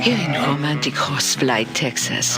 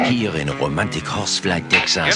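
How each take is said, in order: First: It is said in a sexy, seductive voice. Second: It is said in a plain announcer voice.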